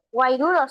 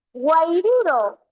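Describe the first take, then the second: First: Said in the usual way. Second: "guairuro" said slowly, stretched out; drawn-out example word. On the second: Shown as a demonstration. Teacher sounding out a triptongo for students, drawn out.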